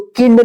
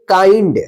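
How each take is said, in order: First: The vowel is a short 'i' sound. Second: The vowel is an 'eye' sound. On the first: The speaker calls it wrong. "इसको किंड नहीं पढ़ेंगे" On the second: The speaker calls it right. "आई का आई उच्चारण"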